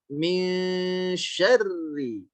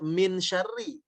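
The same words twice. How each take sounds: First: The n is a held nasal ng sound. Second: The n is pronounced as a clear n. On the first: The speaker calls it right. "dibacanya kebunyi ang" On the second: The speaker calls it wrong. "jangan lagi dibaca min syarri"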